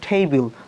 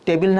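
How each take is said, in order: First: The first sound has a strong puff of air. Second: The first sound has no puff of air. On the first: The speaker calls it right. "বলবো টেবিল, কত সুন্দর লাগে শুনতে" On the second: The speaker calls it wrong. "টেবিল না বলে"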